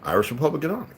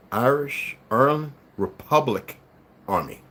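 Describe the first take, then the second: First: Said in the usual way. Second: "Irish, Ireland, Republic Army" broken up, each word set apart by a pause. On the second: Shown as a demonstration.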